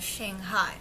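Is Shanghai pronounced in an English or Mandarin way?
English. It is said the English way, without Chinese tones. Local people may not understand the name. The speaker calls it wrong. "instead of Shanghai"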